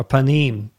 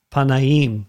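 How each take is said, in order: First: Panim, said pa-NEEM in two syllables; two-syllable pronunciation. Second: Panaim, said pa-na-EEM in three syllables; three-syllable pronunciation. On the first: Teacher offering the class another form, panim in two syllables. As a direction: shorten panim, with no separate middle "a". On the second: Teacher giving the class a Hebrew word, panaim in three syllables. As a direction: draw panaim out with its middle "na". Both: Shown as a demonstration. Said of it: "or panim".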